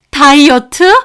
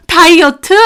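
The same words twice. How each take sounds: First: 다이어트 with a sharp rising, disbelieving tune; 다이어트 rising in scorn; incredulous question. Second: 다이어트 with a falling, contemptuous tune; 다이어트 falling flat in scorn; scornful echo. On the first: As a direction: throw 다이어트 back as a question. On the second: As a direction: drop 다이어트 down in disgust. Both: Acted. Mocking repeat of excuse.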